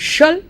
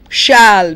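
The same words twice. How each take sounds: First: The word has a short, reduced vowel. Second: The word has a full, clear vowel. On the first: "you have the weak form" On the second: "You have the strong form"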